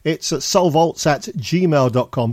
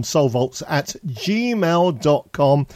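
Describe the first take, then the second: First: Said in the usual way. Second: Slowed right down, spelling it out; slow and clear. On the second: Shown as a demonstration. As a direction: say the email slowly so they can write it.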